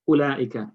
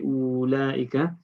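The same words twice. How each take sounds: First: The first vowel is kept short. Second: The first vowel is drawn out long. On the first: The speaker calls it right. "You just say ulaika" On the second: The speaker calls it wrong. "you don't say ulaika"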